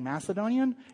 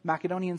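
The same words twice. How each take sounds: First: The c is said like an s sound. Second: The c is said like a k sound. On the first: This is the pronunciation most people grew up with. "what most of us were raised saying" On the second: This is the pronunciation now called proper. "I know Macedonian sounds weird, but people are now saying that that is the proper pronunciation"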